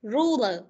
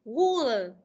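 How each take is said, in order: First: Ruler with a proper English r, not a w; correct r sound. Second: Ruler said as wuler, with a w for the r; wrong w sound. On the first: Teacher corrects pupil: proper English r. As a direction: model the right ruler after the wrong one. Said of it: "Nào phát âm là". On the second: Teacher mimics pupil's wrong wuler. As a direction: imitate the pupil's mistake: wuler. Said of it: "Con phát âm thế này nó thành w". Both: Shown as a demonstration.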